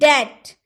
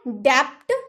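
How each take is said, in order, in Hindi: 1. t से पहले कोई ध्वनि सुनाई नहीं देती। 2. t से पहले b जैसी ध्वनि सुनाई देती है। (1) "बी का उच्चारण नहीं होगा" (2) "डैप्ट नहीं बोल सकते"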